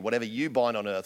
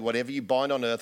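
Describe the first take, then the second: First: The word you carries strong stress. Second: No word gets special stress.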